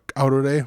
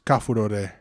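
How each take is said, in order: First: The word has an ow sound without f. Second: The word has an afu sound with f. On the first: This is the eastern dialect form. "in Eastern dialects we got" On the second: This is the western dialect form. "in Western it's"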